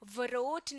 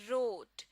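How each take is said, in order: First: A W sound is heard before the R. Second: No W sound is heard before the R. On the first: The speaker calls it wrong. "नहीं" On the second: The speaker calls it right. "Letter डब्ल्यू को silent कर दिया"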